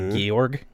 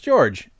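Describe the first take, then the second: First: The name is said the German way. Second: The name is said the English way. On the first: "I heard them pronounce it in their language, and they say Georg" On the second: "it's George"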